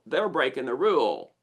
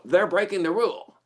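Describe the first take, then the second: First: Said in the usual way. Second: Higher-pitched outburst of mild outrage; indignant accusation. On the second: Acted. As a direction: call out a rule-breaker, indignantly. Acting out indignant reaction to chewing.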